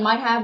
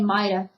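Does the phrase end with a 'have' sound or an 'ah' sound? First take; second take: have; ah. First: The phrase ends with a full 'have' sound. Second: The phrase ends with an 'ah' sound. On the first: "instead of saying might have" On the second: "we say might've"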